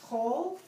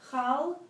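First: The vowel is a rounded 'oh' sound. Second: The vowel is an open 'ah' sound. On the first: The speaker calls it right. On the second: The speaker calls it wrong. "Every time you see the word chal"

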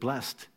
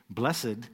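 First: The word is said with one syllable. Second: The word is said with two syllables. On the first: "instead of blessed?" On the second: "Why do we pronounce it blessed, like blessed are the peacemakers"

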